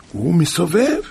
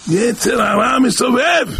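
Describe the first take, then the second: First: Said in the usual way. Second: High, slow preacher's cry; impassioned warning. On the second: Real, not acted. Preacher warning listeners about the evil inclination, crying out slowly.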